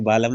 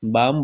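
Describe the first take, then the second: First: "बालम" in two syllables with a clear L; L wrongly sounded. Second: "बाम" as one syllable, long aa into M; silent L. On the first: Teacher showing what not to say, L sounded in "बालम". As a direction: voice the silent L in "बालम". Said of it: "नहीं बोलते". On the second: Teacher showing how balm is said, no L in "बाम". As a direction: drop the L from "बाम". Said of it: "बालम नहीं बोलते". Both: Shown as a demonstration.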